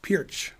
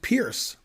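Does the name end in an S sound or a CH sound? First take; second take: CH sound; S sound. First: The name ends with a CH sound. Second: The name ends with an S sound. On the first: The speaker calls it right. "It's pronounced Pirch" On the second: The speaker calls it wrong. "I think it's pronounced Pierce. Well, it's not"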